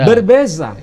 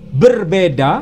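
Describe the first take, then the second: First: It is said the Malaysian way, with z. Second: It is said the Indonesian way, with d.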